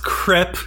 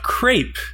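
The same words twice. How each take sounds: First: The vowel is a short 'eh' sound. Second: The vowel is a long 'ay' sound. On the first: The speaker calls it right. "It's pronounced crepe" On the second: The speaker calls it wrong. "not crepe ... an E with an A sound"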